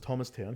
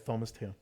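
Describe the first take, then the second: First: The word begins with a plain t sound. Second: The word begins with a th sound. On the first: This is the correct local name. The speaker calls it right. "we told her it was Thomastown" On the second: A non-native speaker swaps the sounds. The speaker calls it wrong. "she'd always say Thomastown"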